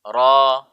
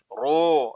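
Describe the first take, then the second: First: It is said with an open mouth. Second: It is said with rounded, protruding lips. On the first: The speaker calls it right. "ah, terbuka" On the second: The speaker calls it wrong. "itu gemuk itu namanya begitu"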